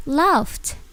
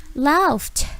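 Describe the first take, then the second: No difference in how they are said.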